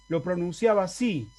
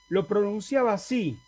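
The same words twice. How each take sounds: The two takes are said the same way.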